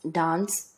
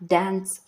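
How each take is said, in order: First: Dance with a broad a, dahns; British pronunciation. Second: Dance with a flat a, as in cat; American pronunciation. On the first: Listing differences for listeners, dance with a broad ah. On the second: Listing differences for listeners, dance with a flat a. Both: Shown as a demonstration. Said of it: "Same are the differences between".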